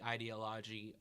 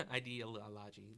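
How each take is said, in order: First: Said in the usual way. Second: "ideology" slowed, its syllables drawn out; extra syllables. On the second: Real, not acted. Podcast teacher tripping over a long word, "ideology" with extra syllables. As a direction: stretch "ideology" out syllable by syllable after a small laugh. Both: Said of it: "a few extra syllables".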